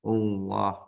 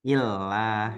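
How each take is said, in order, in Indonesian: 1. Vokal a-nya gelap dan berat, mendekati o. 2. Vokalnya tipis dan ringan, setelah i. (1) "mudahnya O lah, ... menyerupai O" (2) "kalau sebelumnya I, nah berarti dibacanya ilah"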